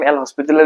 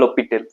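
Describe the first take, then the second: First: The name is said with an audible 's'. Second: The name is said with a silent 's'. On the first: The speaker calls it wrong. "এটো ৰং প্ৰনাউন্সিয়েচন হয়" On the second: The speaker calls it right. "Correct pronunciation হয়"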